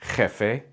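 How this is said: The J is a strong, harsh throaty sound. This is how it is said in Spain.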